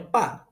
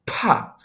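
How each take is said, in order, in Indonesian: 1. P diucapkan tanpa hembusan napas. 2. P diucapkan dengan hembusan napas. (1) "Kita tidak membacanya pa" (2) "tapi bacanya pa. P yang ditambah H"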